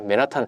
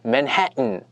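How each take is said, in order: First: It is said with Korean-style pronunciation. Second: It is said with American English pronunciation. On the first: "맨하탄 있잖아요" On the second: "그렇게 굴리는데"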